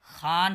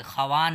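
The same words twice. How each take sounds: First: खान as one syllable, long aa, "khaan"; correct silent-wao reading. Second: खवान in two syllables, "kha-waan"; wrong spelling pronunciation. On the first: Teacher showing the right reading, खान said "khaan", w silent. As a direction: read खान with no w. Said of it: "खान पढ़ेंगे". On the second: Teacher showing what not to read, खवान said "kha-waan". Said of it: "खवान नहीं". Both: Shown as a demonstration.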